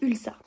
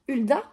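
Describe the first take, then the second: First: The name ends with an 'lsa' sound. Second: The name ends with an 'lda' sound. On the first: This is how the audiobook narrator says it. "dans la lecture audio par le lecteur est prononcée Ulsa" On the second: This is the speaker's own pronunciation. "comme moi je le prononce"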